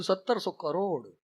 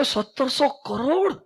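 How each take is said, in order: First: Low, soft, slow falling answer; matter-of-fact confirmation. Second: Amazed question. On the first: Swami answering the astonished boy, quietly matter-of-fact. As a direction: confirm it quietly and slowly, pitch dropping. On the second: Boy asking the swami about a huge salary, amazed. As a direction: imitate an incredulous boy, rising at the end. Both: Retold or imitated.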